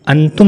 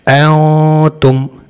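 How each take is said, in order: First: The n sound is pronounced clearly. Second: The n sound is hidden and nasalized. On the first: The speaker calls it wrong. "अंतुम नहीं कहेंगे, नून को जाहिर नहीं करना" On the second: The speaker calls it right. "नून को छुपा देंगे यानी इख्फा करेंगे नून का"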